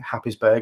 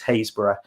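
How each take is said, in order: First: The name is said with a 'Hap' start. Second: The name is said with a 'Haze' start. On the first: This is how an outsider would say it. The speaker calls it wrong. "made the mistake in, of saying Happisburgh in front of a local" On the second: This is how locals say it. The speaker calls it right. "you certainly will know that it's Haysborough"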